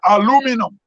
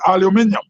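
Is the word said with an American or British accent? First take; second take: American; British. First: It is said with an American accent. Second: It is said with a British accent.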